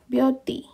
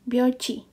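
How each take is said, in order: First: The consonant before the final vowel is t. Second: The consonant before the final vowel is ch. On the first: The speaker calls it wrong. "Ini kan seharusnya bacanya adalah bio bioti" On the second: The speaker calls it right. "Ini kita ganti dengan bioci"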